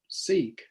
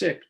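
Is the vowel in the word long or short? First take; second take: long; short. First: The vowel is long, like 'seek'. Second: The vowel is short, like 'sick'. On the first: The speaker calls it wrong. "Most of us pronounce it seek" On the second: The speaker calls it right. "but it's sick, just like being ill"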